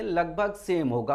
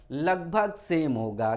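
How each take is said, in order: First: Said in the usual way. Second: Slow, with लगभग stressed and drawn out; slow emphatic repeat. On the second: Shown as a demonstration. Teacher repeating to students that the spellings are nearly the same, slow and stressed. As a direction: lean on लगभग, taking it slowly. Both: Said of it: "हूबहू नहीं होगा".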